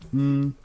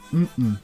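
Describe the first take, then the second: First: Both syllables are on a high tone. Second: The syllables are not both on a high tone. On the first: It means yes. "again two high tones" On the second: It means no. "notice how it's different from this one"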